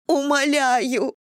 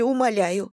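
First: Higher, slow drawn-out wail on Умоляю; wailing plea. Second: Said in the usual way. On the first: Acted. Irina begs Anna for two weeks, wailing Умоляю. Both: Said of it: "заголосила она".

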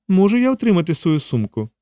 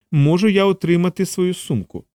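First: Lightly voiced woman, higher pitch; woman's request. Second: Higher voice with a touch of coldness; cold repeat. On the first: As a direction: ask in a lifted character voice. Жінка вимагає повернути сумку. (легко озвучена жінка, вищим голосом) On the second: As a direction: repeat the demand with cool restraint. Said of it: "холодно повторила Анжела". (холодне повторення, вищим голосом) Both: A narrator's reading.

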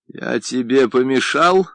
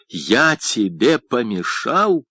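First: Raised voice, rising question; very loud question. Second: Slow, emphatic, mounting irritation; growing anger. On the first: Painter's friend asks the deaf painter whether he interrupted, very loudly. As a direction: ask it loudly, lifting the end. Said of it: "спросил тот очень громко". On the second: Friend repeats the question for the deaf painter, with growing anger. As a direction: spell it out slowly with rising anger. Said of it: "с нарастающей злостью написал Агустин". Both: A narrator's reading.

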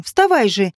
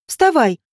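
First: Lower-keyed repeated order; insistent command. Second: Brief, mild order; commanding. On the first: Zhenka urges Vadim up, insistently commanding. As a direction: press him to obey. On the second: Zhenka orders Vadim up, commanding. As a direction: order him to his feet. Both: A narrator's reading. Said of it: "велела Женька Вадиму".

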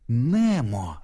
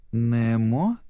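First: Mild cry of sudden recognition; excited cry. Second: «Немо» drawn up into a rising question; questioning repeat. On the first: Dori suddenly remembers Nemo, mildly crying out his name. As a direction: call the name as memory floods back. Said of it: "закричала она, припомнив всё". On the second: Dori checks the little fish's name, «Немо» rising questioningly. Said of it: "переспросила Дори". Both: A narrator's reading.

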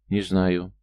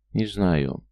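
First: Understated nervous reply. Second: Mildly dejected, falling tone; anguished. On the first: Lad answering the barman's question, mildly nervous. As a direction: answer quickly with a touch of nerves. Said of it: "нервно ответил парень". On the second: Lad repeating his answer to the barman, understated anguish. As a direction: repeat it with a touch of hopeless misery. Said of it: "повторил с тоской Алексей". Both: A narrator's reading.

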